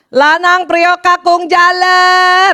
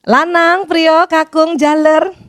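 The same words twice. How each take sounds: First: It is called angrily, like a scolding. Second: It is called sweetly with a smile.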